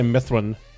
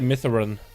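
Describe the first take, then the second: First: The vowel in the name is left silent. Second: The vowel in the name is clearly pronounced. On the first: This is the usual way of saying it. "I usually say Mithran" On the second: This is not the usual way of saying it. "I don't say Mithran"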